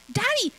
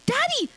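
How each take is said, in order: First: High, loud call for daddy; child yelling. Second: Even higher, louder second call; louder child yell. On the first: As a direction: shout for daddy from the doorway. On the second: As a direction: call daddy harder the second time. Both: A narrator's reading. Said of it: "yelled Ariel".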